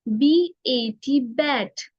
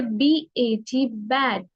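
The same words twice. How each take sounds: First: बी ए टी spelled out slowly, letter by letter, then बैट; slow teacher spelling; slow spelling demo. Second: Said in the usual way. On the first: Shown as a demonstration. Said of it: "हम लोग बोलेंगे बी ए टी बैट". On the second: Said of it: "हम लोग बोलेंगे".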